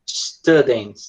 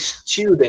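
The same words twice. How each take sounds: First: The first vowel sounds like an 'a'. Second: The first vowel sounds like a 'u'. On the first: "o americano pronuncia tipo students, né? Como se esse U fosse um A" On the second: "na Inglaterra, eles tendem a pronunciar como se esse U fosse uma espécie de U"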